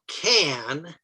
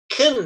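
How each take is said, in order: First: The vowel is a full, clear 'a' sound. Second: The vowel is reduced, sounding like 'kin'. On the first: Listeners may hear it as can't. The speaker calls it wrong. "If you say can, C A N, most English listeners will hear that as can't" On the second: Listeners hear it as can. The speaker calls it right. "most English speakers pronounce can as kin"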